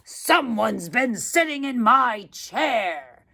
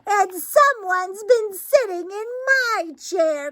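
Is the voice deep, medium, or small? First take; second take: deep; small. First: It is said in a great, huge voice. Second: It is said in a wee, small voice.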